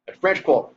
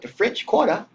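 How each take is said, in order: First: FRENCH QUARTER run together, stress on French; quick local "French Quarter", higher and firm. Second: FRENCH QUARTER said carefully, higher, rising on Quarter; spelled-out "French Quarter" with a lilt; outsider's French Quarter. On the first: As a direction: punch "French" and let "Quarter" fall away. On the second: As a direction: lift "Quarter" up as KWOR-tuh. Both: Shown as a demonstration. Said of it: "gotta say it with that accent".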